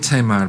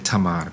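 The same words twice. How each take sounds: First: The name is said the common English way. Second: The name is said the Hebrew way. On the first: "that's the common English um, pronunciation of her name" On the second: "She might say Tamar"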